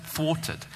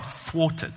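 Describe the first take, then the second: First: Thwarted said again, softer with a falling close; second try at the word. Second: Thwarted tried higher and breathy, the thw cluster careful; "Thwarted" sounded out slowly, testing the thw; practising a hard word. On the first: Preacher retrying the awkward word, quieter and falling. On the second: Preacher testing a word he finds hard to say, breathy try. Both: Shown as a demonstration. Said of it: "I can barely even say the word thwarted".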